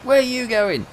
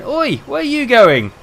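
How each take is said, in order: First: High, loud shouted question; mate shouting in the lift again; loud call. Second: Loud shout across the lift; mate shouting down the lift; shouted call. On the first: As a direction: call after him across the lift. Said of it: "replaying the lift moment". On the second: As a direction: yell after him to stop. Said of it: "my mate going". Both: Retold or imitated.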